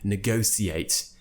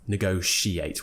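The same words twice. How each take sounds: First: The middle consonant is an s sound. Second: The middle consonant is a sh sound. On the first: This is an old-fashioned, upper-class pronunciation. "more of an old-fashioned, perhaps upper R P thing to say" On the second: This is the common modern pronunciation. "with the sh sound"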